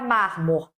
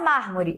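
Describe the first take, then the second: First: The final vowel is dropped. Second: The final vowel is pronounced.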